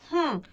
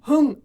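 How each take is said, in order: First: Air is blown out strongly through the nose. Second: It is a voiced sound without air from the nose. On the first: The speaker calls it right. "정말 코로 바람이 나오는 걸 집중하면서" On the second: The speaker calls it wrong. "이렇게 소리를 내지 않죠"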